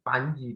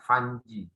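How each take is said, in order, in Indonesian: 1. Namanya diawali dengan bunyi p. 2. Namanya diawali dengan bunyi f. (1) "saya bilang namanya itu Panji" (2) "bukan Fanji"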